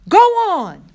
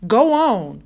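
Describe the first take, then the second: First: High, very loud angry yell; furious shout. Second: Raised voice, coaxing an animal to move; firm urging. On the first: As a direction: explode at it in sudden fury. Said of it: "Rob shouted, suddenly furious". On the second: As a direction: send it off with a firm push. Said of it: "Rob said to him". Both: A narrator's reading.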